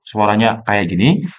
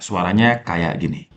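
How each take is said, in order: First: The processing focuses on one nearby voice. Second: The processing picks up voices from all around. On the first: "single presenter mode" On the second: "multi presenter mode"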